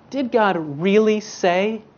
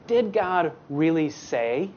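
First: Really leaned on and lifted; serpent's needling repeat with really stressed. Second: Slow, sly question; a lightly voiced scheming serpent. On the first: Acted. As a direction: push the doubt into the word really. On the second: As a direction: plant the doubt slowly, like a tempter. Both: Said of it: "the serpent... he says".

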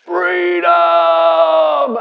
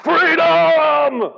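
First: Long, loud sung-out shout; Wallace's final cry, held long and loud; dying battle cry. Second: High, loud drawn-out cry of freedom; soaring mock war cry; Braveheart battle cry. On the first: Retold or imitated. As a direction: pour his last breath into one defiant shout. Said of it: "takes it in and goes". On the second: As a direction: shout it like a rebel leader rallying his men. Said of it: "I love a bit of Braveheart".

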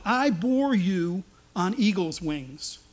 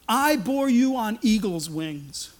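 First: "I bore you on eagle's wings" drawn out slow; slow solemn line. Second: "I bore you on eagle's wings" slow, weight on "I"; slow emphatic repeat. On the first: Preacher voices God speaking tenderly. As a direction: lean on "bore", slow and grand. God's words, slowed and weighty. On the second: Preacher repeats God's promise with weight. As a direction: stress "I", stretch the line. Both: Acted.

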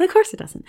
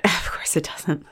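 First: Much higher, fully voiced; high, knowing exclamation; high-pitched reaction. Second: Slow, breath-only muttering; hushed, voiceless aside; resigned whisper. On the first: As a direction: lift it right up into a high voice. Same line repeated much higher. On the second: Acted. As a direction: whisper it slowly to yourself. Player resigned to clinging spider.

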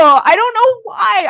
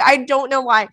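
First: High, helpless laughing squeal. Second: Said in the usual way. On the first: Real, not acted. Host laughing helplessly at her own rant, high. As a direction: lose it laughing on the words.

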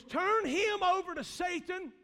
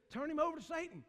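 First: "Turn him over to Satan" higher, louder and slow; "Turn him over to Satan" slow and loud from the pulpit; proclaimed slowly. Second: Said in the usual way. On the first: Acted. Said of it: "What Paul said was". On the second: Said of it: "And he says".

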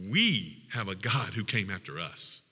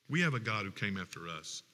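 First: Said in the usual way. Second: Echoed back much softer and lower; softer repeat. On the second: Shown as a demonstration. Pastor repeating the point to the congregation, much softer. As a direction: let the repeat sink in quietly. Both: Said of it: "repeated line".

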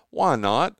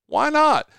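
First: Said in the usual way. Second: High, loud incredulous repeat; excited why not. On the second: Real, not acted. Host challenging listeners, high excited why not. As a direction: push the question up in mock disbelief.

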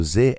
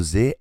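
First: Z pronounced "zee"; American Z. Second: Z pronounced "zed"; British Z. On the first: Teacher shows learners American English pronunciation, Z as "zee". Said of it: "No inglês americano". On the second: Teacher shows learners British English pronunciation, Z as "zed". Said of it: "Já no inglês britânico". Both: Shown as a demonstration.

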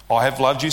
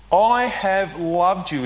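First: Said in the usual way. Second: "I have loved you" slowly, I stressed; emphatic declaration. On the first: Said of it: "emphatic statement". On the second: Acted. God speaking to Israel, slow and emphatic. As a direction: let each word land with weight. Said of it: "makes this emphatic statement".

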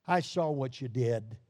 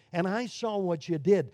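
First: Lower, grave "I saw what you did"; stern father. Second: Patient, kind tone on "I saw what you did"; gentle father. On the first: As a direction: say it as an accusation. Stern father in justice scene. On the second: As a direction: say it kindly, no threat. Gentle father in first scene. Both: Acted.

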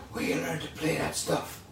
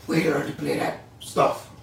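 First: Much softer hoarse half-whisper, like a damaged throat. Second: Said in the usual way. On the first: Retold or imitated. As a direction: rasp it out softly like a jazz legend. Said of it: "his raspy voice". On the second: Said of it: "He said another S word".

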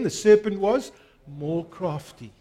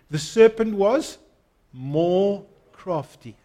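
First: Said in the usual way. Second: Slow, leaning on more crafty; call and response. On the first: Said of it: "Let's say that again". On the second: Shown as a demonstration. Preacher leading the church in repeating the verse, slow and stressed. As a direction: lead the congregation in saying it. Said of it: "say this with me".

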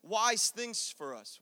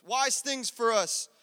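First: "wise" drawn out slowly; slow stress. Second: "wise" stretched and pushed louder; louder stress. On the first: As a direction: lean on "wise". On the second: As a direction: punch "wise" again, louder. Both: Shown as a demonstration. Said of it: "repetition for emphasis".

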